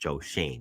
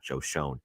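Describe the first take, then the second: First: The surname rhymes with 'lane'. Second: The surname rhymes with 'lone'. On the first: The speaker calls it right. "it's pronounced Joe Shane" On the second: The speaker calls it wrong. "not Joe Shone"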